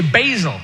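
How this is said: It is said in an American accent.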